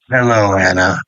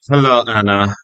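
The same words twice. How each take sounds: First: It is said in a deep voice. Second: It is said in a young voice. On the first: "the deeper voice" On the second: "young Cesar"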